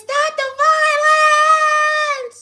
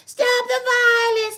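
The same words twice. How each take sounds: First: Very high, very slow, loud sung shout; sung, stretch it out as the big closing note; drawn-out shouted sung ending; sung, belted finale. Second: Sung slogan. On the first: Sung slogan, big finish. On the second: Sung slogan, first take. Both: Acted.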